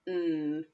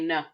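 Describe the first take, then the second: First: The n sound is held with no vowel. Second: The n sound ends with an added vowel. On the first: The speaker calls it right. "It's n. Yeah, that's right" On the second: The speaker calls it wrong. "I hope we didn't say n"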